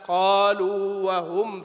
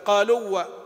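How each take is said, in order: First: The long vowel is held before the w. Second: The long vowel is dropped and merged into the w. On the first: The speaker calls it right. "لا قالوا وهم فيها" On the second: The speaker calls it wrong. "فيخشى أن تقول قالوا و، يعني تسقط المد"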